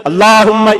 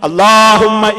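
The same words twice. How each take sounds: The two takes are said the same way.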